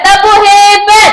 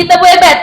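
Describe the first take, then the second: First: High, loud classroom chant call; cheer call. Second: Said in the usual way. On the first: Shown as a demonstration. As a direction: launch the class into a clapping cheer. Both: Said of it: "Kita beri tepuk hebat".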